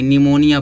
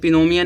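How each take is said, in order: First: The word begins with an N sound, no P. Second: The word begins with a clear P sound. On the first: The speaker calls it right. "निमोनिया पढ़ेंगे" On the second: The speaker calls it wrong. "इसे पिनोमिया नहीं पढ़ेंगे"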